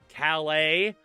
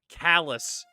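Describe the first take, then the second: First: The name ends with a 'lay' sound. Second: The name ends with a 'lus' sound. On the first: This is the French town's name. "You know how France has Calais?" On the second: This is the Maine town's local name. "except we pronounce it callous"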